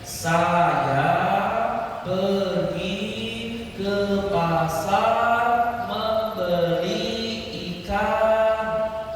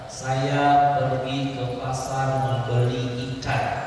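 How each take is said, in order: First: The sounds are stretched out and drawn long. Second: The sentence is read at normal length and speed.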